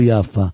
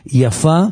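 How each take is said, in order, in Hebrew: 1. המבטא על ההברה הראשונה. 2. המבטא על ההברה האחרונה. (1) "ולא לא על, על היוד" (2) "תדגישו את ההדגשה על הפי"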